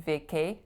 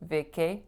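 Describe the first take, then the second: The two takes are said the same way.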